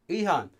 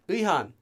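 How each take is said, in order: First: The word is pronounced loosely, as in conversation. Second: The word is pronounced loosely, as in conversation.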